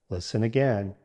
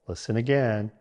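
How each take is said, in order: The two takes are said the same way.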